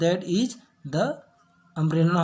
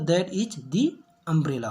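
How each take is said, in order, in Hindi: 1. 'the' को छोटे 'thuh' की तरह बोला जाता है। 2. 'the' को लंबे 'thee' की तरह बोला जाता है। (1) "द" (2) "दी पढ़ेंगे"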